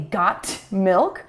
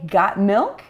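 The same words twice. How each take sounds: First: The T in 'got' is clearly pronounced. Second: The T in 'got' is silent. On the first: The speaker calls it wrong. "We don't say got milk" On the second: The speaker calls it right. "You don't hear that T sound normally"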